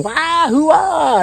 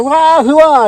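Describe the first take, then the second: First: High hooting whoop, far off in pitch; ghost war whoop. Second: High, loud hooting yell; loud ghost whoop. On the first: Ghost throwing hay, hooting a high whoop. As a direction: whoop like a rowdy ghost fan. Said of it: "and he's screaming". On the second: Ghost bellowing his cheer while busting hay. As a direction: holler it like a wild fan. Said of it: "He's like". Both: Retold or imitated.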